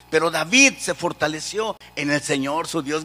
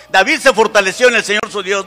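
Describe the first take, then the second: First: Said in the usual way. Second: Loud preacher's proclamation; rallying shout. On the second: Shown as a demonstration. Preacher asks the congregation to shout the verse, loud rallying cry. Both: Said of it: "Grítenlo, por favor".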